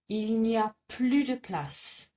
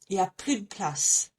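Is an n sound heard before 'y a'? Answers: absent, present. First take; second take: present; absent. First: The n sound of the negation is pronounced. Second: The n sound of the negation is dropped.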